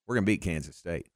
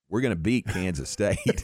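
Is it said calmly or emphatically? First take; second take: calmly; emphatically. First: It is said calmly and evenly. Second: It is said with strong emphasis.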